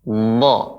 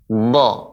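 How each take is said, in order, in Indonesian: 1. Bibir tetap netral, menghasilkan vokal terbuka seperti a. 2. Bibir tetap netral, menghasilkan vokal terbuka seperti a.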